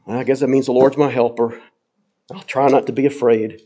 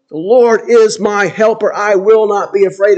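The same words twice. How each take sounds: First: Low, hesitant and half-hearted; grudging, unsure shrug of a statement; doubtful. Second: Bold, settled trust in every word; confident. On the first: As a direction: say it like you barely believe it. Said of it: "Does he say it kind of in a". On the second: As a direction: declare it with full conviction. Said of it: "He'll confidently say". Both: Shown as a demonstration.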